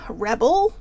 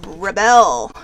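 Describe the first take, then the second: First: "Rebel?" with a rising question tune. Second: "rebel" said with a falling tune, stress on the first syllable. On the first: Reading the card's word "Rebel" aloud to viewers as a question. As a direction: ask it: "Rebel?", pitch going up at the end. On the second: Reading the card's word "rebel" aloud, stressed on the first syllable. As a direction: say "rebel" as REB-el, falling at the end. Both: Shown as a demonstration. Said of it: "However you want to read it".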